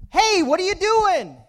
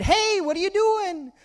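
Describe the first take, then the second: First: High, loud indignant yell; acted angry holler; boy getting mad. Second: High yell thrown back as an echo; high echoed holler. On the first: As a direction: shout it like a cross little boy. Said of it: "started to get mad". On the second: Retold or imitated. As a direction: mimic the boy's cry, less forceful. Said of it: "And the voice said".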